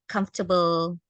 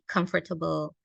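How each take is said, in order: First: The word is said with three syllables. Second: The word is said with four syllables.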